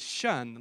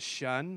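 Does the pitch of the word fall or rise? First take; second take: fall; rise. First: The pitch falls through the word. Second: The pitch rises through the word. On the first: It means kidney. "like you're falling down the staircase" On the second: It means God. "like you're going up a staircase"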